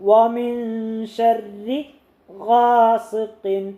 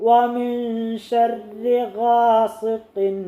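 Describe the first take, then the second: The two takes are said the same way.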